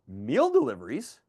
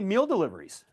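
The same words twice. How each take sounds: First: The voice rises at the end. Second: The voice falls at the end.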